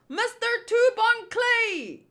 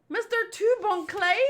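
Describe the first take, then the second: First: High, projected call to the captain. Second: High searching call, rising at the end; questioning call. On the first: Crew hailing their captain, high calling voice. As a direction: sing out the name across the ship. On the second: Crew looking for the missing captain, questioning high call. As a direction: call the name as a worried question. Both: Acted.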